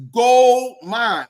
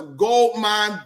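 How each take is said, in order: First: GOLD punched out loud; loud, emphatic "gold mine"; said with emphasis. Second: Said in the usual way. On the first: Retold or imitated. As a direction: hit "gold mine" hard, leaning on gold. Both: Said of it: "She said it with emphasis".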